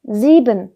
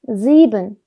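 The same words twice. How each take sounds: The two takes are said the same way.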